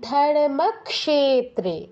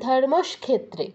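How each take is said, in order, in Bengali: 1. k ধ্বনির পরে একটি s ধ্বনি আসে। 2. k ধ্বনির আগে একটি s ধ্বনি আসে। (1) "কি বলতে হবে?" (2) "শটা আগে নিয়ে আসে কেন?"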